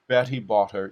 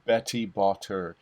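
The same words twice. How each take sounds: First: The T sounds are soft and gentle. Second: The T sounds are hard and exaggerated. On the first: The speaker calls it right. "the audience hears a T" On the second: The speaker calls it wrong. "that's an overdoing of it, and you don't sound human"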